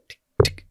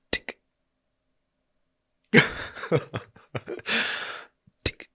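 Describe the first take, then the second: First: Clock ticking. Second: "tick" spaced out with long pauses, like a dragging clock; single "tick" sounds left hanging in silence; slow ticking. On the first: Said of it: "you know when you can hear a clock". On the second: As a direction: stretch each "tick" apart, agonisingly slow. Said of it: "it wasn't going tick, tick. It was going". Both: Shown as a demonstration.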